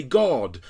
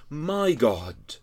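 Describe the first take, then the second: First: Said in the usual way. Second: "My" leaned on in "My God"; My God with the weight on My; stress on MY. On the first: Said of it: "he doesn't just say". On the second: Shown as a demonstration. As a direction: lean into the word My in "My God". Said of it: "but he says".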